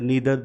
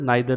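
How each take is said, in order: First: The first vowel sounds like 'ee'. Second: The first vowel sounds like 'eye'. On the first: "दोनों ही pronunciation जो है वो सही है" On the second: "नाइदर को नीदर भी बोला जाता है"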